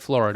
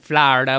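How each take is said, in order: First: It is said with the speaker's own pronunciation. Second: It is said with a local Floridian pronunciation. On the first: This is how the speakers themselves say it. "but we say Florida" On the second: This is how locals say it. "People from Florida probably pronounce it Florida"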